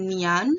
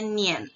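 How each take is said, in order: First: Nian with an open "a", like "nee-ahn", rising; wrong Nian. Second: Nian as "nyen", falling at the end; correct Nian. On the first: Teacher showing the reading to avoid, wrong-pronunciation demo. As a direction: say Nian as "nyahn", left raised. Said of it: "bacanya bukan Nian". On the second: Teacher giving the proper reading, pronunciation demo. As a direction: say Nian with an "e" in place of "a". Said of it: "tapi bacanya Nian". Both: Shown as a demonstration.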